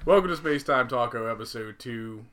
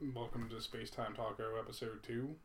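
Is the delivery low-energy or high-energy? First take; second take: high-energy; low-energy. First: It is said with high energy. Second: It is said with low energy.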